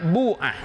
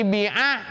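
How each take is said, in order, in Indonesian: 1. Vokal pertama adalah bunyi u yang jelas. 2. Vokal pertama adalah bunyi i yang jelas. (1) "boleh juga dibaca dhammah" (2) "dibaca kasroh"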